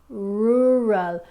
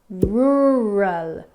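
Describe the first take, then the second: The two takes are said the same way.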